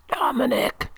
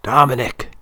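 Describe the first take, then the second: First: Faint, hoarse whisper of a dying man. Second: Clear and loud. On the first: Dying old father wakes his dozing son, hoarse whisper. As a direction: breathe the name out hoarsely, high and thin. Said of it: "he whispers hoarsely". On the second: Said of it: "he says again". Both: A narrator's reading.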